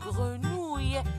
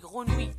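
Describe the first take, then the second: First: The word ends with the 'ouille' sound. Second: The word ends without the 'ouille' sound. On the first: The speaker calls it right. "Vous devez prononcer le mot grenouille comme ça. ... C'est le son ouille" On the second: The speaker calls it wrong. "C'est faux. C'est une mauvaise prononciation"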